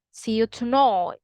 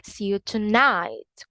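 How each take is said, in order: First: Put-on Birmingham tonight with the vowel of boy; Birmingham accent. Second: Tonight with an I sound, British; British English. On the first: Teacher explaining the vowel, Birmingham accent. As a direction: say tonight as "tonoyt", Birmingham style. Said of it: "Whereas in Birmingham". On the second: Teacher explaining the vowel, British English. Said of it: "In British English". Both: Shown as a demonstration.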